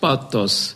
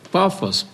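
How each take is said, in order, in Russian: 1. Средний согласный — звук Т. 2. Средний согласный — звук Ф. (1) "по западному произношению" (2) "Отсюда «пафос» русский"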